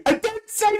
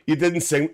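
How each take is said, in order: First: Squeaky, teasing high-pitched echo of the phrase; mock high voice. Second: Said in the usual way. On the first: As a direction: echo the line back in a much higher mocking voice. Mocking repeat of viewer line.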